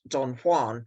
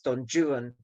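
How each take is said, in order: First: Juan is pronounced in the Spanish way. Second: Juan is pronounced in an anglicized English way. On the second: "in the English way"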